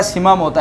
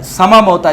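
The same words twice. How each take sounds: First: سما said sɪma, with an i-sound (zer) on the س; سما mispronounced with zer instead of zabar; mock wrong reading. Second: سما said səma, with an a-sound (zabar) on the س, slowly; سما pronounced with zabar, not zer; correct pronunciation. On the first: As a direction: imitate the opponent's reading of سما موتا as sɪma mota. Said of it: "جس کو یہ پڑھتا ہے". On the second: Shown as a demonstration. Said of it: "سین پر زبر ہے، زیر نہیں ہے، سما ہے".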